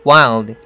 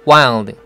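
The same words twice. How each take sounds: Both takes have the same delivery.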